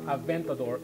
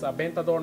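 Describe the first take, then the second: First: The v is pronounced the English way. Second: The v is pronounced the Spanish way. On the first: The speaker calls it wrong. "not Aventador" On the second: The speaker calls it right. "it's Aventador, The V is pronounced like a V in Spanish"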